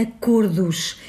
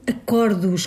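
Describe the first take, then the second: First: Acordos with a closed stressed O, as in "avô"; correct pronunciation. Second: Acordos with an open O, like "acórdos"; wrong pronunciation. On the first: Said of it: "O plural de acordo é acordos". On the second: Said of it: "Começamos com o erro acordos". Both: Shown as a demonstration.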